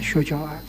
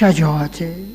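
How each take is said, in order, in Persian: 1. مصوت اول صدای گرد 'u' است. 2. مصوت اول صدای باز 'a' است. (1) "میگن شجاعت" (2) "اما مصدرش شجاعته"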